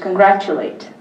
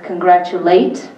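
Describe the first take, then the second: First: It has the usual British stress pattern. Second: It has the shifted Nigerian stress pattern. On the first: "British congratulate" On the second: "same thing with congratulate"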